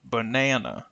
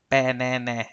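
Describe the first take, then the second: First: Banana said as ba-NA-na, middle syllable long, first and last vowels weak schwa; stress on the middle na. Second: Banana said with the short a of cat in all three syllables, no reduced vowels; same vowel everywhere. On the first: Teacher showing the stressed na in Banana. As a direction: model the word, landing on its middle syllable. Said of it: "Let's use capital letters to show this stress". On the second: Teacher showing the awkward all-full-vowel Banana. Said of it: "if we use the same a sound for all of the A's". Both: Shown as a demonstration.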